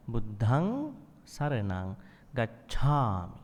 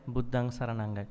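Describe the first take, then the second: First: Slow "Buddhang", breathy dh, "gacchami" breathed; aspirated Pali. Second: "Buddhang" with no breath on the dh; "Buddhang saranang ga-" said plain, no breathy emphasis; wrong, flat aspirate. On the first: Teacher demonstrates aspirated Pali slowly. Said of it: "That sibilant, right?". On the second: Teacher shows the wrong way, unaspirated. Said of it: "Not like". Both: Shown as a demonstration.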